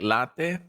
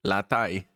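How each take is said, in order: First: Latte as LAH-teh, open Spanish vowels. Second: Latai, said lah-TAY; English latte. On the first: Showing a friend the Spanish reading, Spanish pronunciation. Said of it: "how we read it in Spanish". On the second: Showing a friend the English reading, English pronunciation. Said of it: "it's pronounced". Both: Shown as a demonstration.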